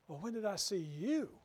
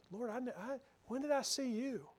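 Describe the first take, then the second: First: "you" rising in indignant challenge; defensive, as if falsely accused; proud defensiveness. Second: Higher, softer, stammering "Lord, I, I" in amazement; humbly amazed, stress on "I"; humble wonder. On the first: The proud one challenges the Lord, indignant rise on "you". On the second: The humble servant asks the Lord, higher, soft and amazed. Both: Shown as a demonstration. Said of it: "Words are almost the same. The emphasis is just a little bit different".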